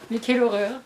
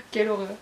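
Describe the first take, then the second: First: A louder, hammed-up cry of horror; louder mock horror. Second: A playful gasp of horror at a near spoiler; mock horror. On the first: Booktuber to viewers repeating herself, louder mock outrage. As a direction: push the fake outrage up. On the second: Booktuber to viewers about a near spoiler, mock horror. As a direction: say it like a mock-shocked reader. Nearly spoiled herself on the book.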